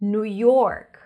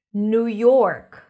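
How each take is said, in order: Both takes have the same delivery.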